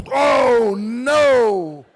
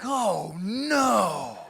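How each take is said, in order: First: Big, drawn-out wail of dread; loud dismay. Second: Drawn-out, understated dread at usual volume; dismayed. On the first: Big man squeezed into centre seat, loud dismayed wail. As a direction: bellow it long and loud in comic horror. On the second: Two seated guys seeing a big man arrive, drawn-out dismay. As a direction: groan the words slowly in mock dismay. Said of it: "looking up at me like". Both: Acted.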